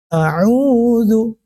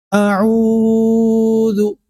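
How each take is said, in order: First: The u vowel is held for two beats. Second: The u vowel is drawn out far too long. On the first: The speaker calls it right. "itu dua harakat" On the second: The speaker calls it wrong. "Itu berlebihan harakatnya"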